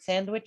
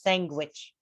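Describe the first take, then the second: First: The word is said without a G sound. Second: The word is said with a G sound inside. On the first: The speaker calls it right. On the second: The speaker calls it wrong.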